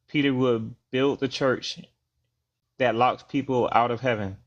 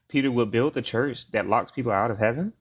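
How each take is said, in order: First: It is said as a statement, falling at the end. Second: It is said as a question, rising at the end. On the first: It is asserted as a claim. The speaker calls it wrong. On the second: It is posed as an open question. The speaker calls it right.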